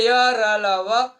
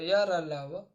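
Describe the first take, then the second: First: Each letter slow and loud, rising on र; teacher drilling each sound slowly and loudly; slow spelled out. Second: Said in the usual way. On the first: Shown as a demonstration. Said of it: "और बोले". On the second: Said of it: "वर्ण लिखो तो".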